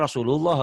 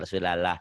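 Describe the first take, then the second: First: Rasulullah with a clear u in the middle; correct vowel. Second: Rasulallah with a flat a in the middle; mispronounced Rasulallah; wrong vowel. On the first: Shown as a demonstration. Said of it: "Padahal Rasulullah kan". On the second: Retold or imitated. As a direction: say Rasulallah the mistaken way, la instead of lu. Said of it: "kadang-kadang Rasulallah".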